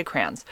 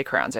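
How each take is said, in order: First: "crayons" as one syllable, crans; own pronunciation. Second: "crayons" said as "crowns"; the rejected pronunciation. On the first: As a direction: say "crayons" softly to rhyme with fans. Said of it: "I say crayons". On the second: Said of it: "but I don't really say crayons". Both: Shown as a demonstration.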